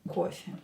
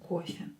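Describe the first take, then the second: The two takes are said the same way.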